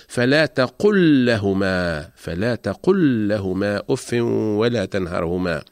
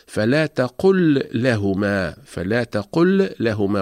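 First: تقل لهما with the Ls merged into one doubled L, slow; correct merged lam. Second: فلا تقل لهما with the L of تقل held apart from لهما, slow; wrong separated lam. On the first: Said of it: "وإنما نقول". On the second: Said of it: "فلا نقول في هذه الحالة". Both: Shown as a demonstration.

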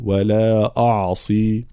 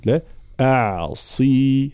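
First: أعصي said the wrong way, slowly; mispronounced أعصي for contrast; wrong pronunciation. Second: أعصي slow, light ain, heavy ص; the right way to say أعصي; correct pronunciation. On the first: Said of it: "ولا أقول". (نطق خاطئ لكلمة أعصي) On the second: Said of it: "هكذا". (نطق صحيح لكلمة أعصي) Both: Shown as a demonstration.

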